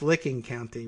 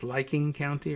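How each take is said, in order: First: The first word sounds like 'licking'. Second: The first word sounds like 'liking'. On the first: The speaker calls it right. "it's pronounced Licking County" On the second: The speaker calls it wrong. "some weird pronunciation like it's Liking County"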